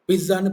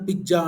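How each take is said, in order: First: The middle consonant has a z-type sound. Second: The middle consonant is a j sound.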